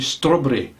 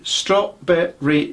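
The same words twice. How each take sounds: First: The syllables are uneven in length. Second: The three syllables are even in length. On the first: The speaker calls it wrong. "don't say strawberry, because it's the wrong way of saying it" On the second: The speaker calls it right. "it must be very even syllables. It has to be strawberry jam"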